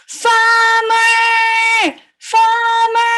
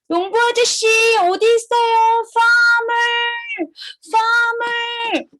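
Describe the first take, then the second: First: Big, high, sing-song shout; calling out loud. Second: High, sing-song call; calling the farmer. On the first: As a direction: holler with long held vowels. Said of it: "Let's call the farmer out loud". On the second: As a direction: call out for someone far away. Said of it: "Call the farmer first". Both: Acted.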